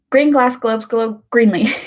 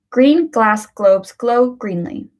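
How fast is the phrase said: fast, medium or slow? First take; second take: fast; medium. First: The phrase is said quickly, words running together. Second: The phrase is said at a moderate speed. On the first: "now we try to say it quick" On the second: "Let's do this at a medium pace now"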